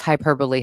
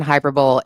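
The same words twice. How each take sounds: First: Hyperbole said "HY-per-bowl"; hyperbole with no final "ee", rhyming with bowl; alternative pronunciation. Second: Hyperbole said "hy-PER-buh-lee"; hyperbole with stress on PER and a final "ee"; common pronunciation. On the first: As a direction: say hyperbole in three syllables, ending like "bowl". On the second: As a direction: say hyperbole in four syllables, ending in "lee". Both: Shown as a demonstration. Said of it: "I pronounce hyperbole hyperbole".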